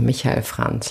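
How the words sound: The name is pronounced with German sounds.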